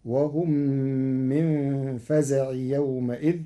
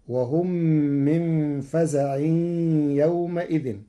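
First: فزع without nunation, faza'i yawma'idhin, the m of يومئذ open; Warsh reading of فزع. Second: فزع with nunation, faza'in, yawma'idhin; common reading of فزع. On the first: Teacher shows Warsh, فزع with no nunation. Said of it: "بغير تنوين". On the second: Teacher recites the usual form, فزع with nunation. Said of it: "قرأ ورش كلمة فزع". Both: Shown as a demonstration.

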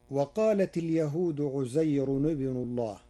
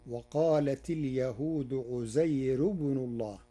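First: عزير with tanween, ʕuzayrun; Hafs reading. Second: عزير without tanween, thin r: ʕuzayru; Warsh reading. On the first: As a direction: say عزير as ʕuzayrun-ibnu, nunation kept. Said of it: "قرأ ورش كلمة عزير بغير تنوين". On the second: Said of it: "بغير تنوين وترقيق الراء". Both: Shown as a demonstration.

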